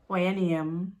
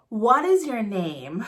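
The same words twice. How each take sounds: First: Jamaican Patois. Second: Said in the usual way. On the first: Shown as a demonstration. Teacher translating for learners, in Jamaican Patois. Patois version of English model.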